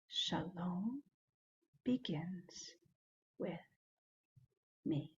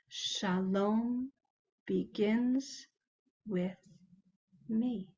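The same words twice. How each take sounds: First: It is said more quietly than normal. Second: It is said at normal speaking volume.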